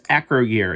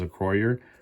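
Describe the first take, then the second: First: The stress falls on the first syllable. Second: The stress falls on the second syllable. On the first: The speaker calls it wrong. "I was putting the wrong, I guess, accent on the wrong place" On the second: The speaker calls it right. "it was a croyer, not acro year"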